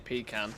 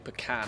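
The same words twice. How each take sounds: First: Pecan is pronounced the British way. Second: Pecan is pronounced the American way. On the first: "being English, I'd say pecan" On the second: "It's probably pecan, isn't it"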